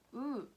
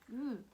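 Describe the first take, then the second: The two takes are said the same way.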